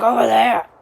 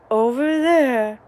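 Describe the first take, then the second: First: Dad calling louder; dad raising his voice to help; raised voice. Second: Slow, emphatic mock call; imitating dad raising his voice; raised voice. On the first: Retold or imitated. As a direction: repeat the phrase louder, impatient. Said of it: "raising your voice". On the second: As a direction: drag it out impatiently. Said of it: "raising your voice, saying the phrase".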